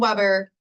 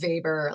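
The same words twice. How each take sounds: First: The name begins with a W sound. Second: The name begins with a V sound. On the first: The speaker calls it wrong. "Spelled Weber" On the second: The speaker calls it right. "like if you were to say it with a V"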